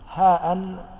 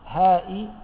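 First: It ends with a glottal stop plus -in. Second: It ends with a glottal stop plus -i. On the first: "بالتنوين" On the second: "بالكسرة"

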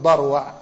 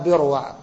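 First: The name is said in the linguists' way. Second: The name is said in the hadith scholars' way. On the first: This is how scholars of the language pronounce the name. "وأهل اللغة يقولون بروع" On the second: This is how hadith scholars pronounce the name. "عند أهل الحديث ينطقونها بروع"

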